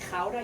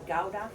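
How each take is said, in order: First: It is said with the Dutch pronunciation. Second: It is said with an English pronunciation. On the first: "we say Gouda" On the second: "you know it as Gouda"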